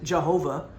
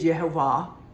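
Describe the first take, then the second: First: The word begins with a J sound. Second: The word begins with a Y sound. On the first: This is the English form. "we pronounce it Jehovah in English pronunciation" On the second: This is the original Hebrew form. "The Hebrew word is Yehovah"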